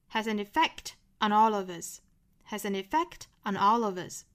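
There is a pause after "effect".

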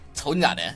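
It is said softly and mildly. The speaker calls it wrong. "我俩太温柔了"

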